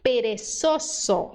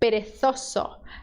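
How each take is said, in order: First: The z is said with an s sound. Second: The z is said with a th sound. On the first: It sounds like a non-Spain accent. "vamos pro S" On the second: It sounds like the accent of Spain. "Na Espanha acontece o fenômeno linguístico chamado el ceceo"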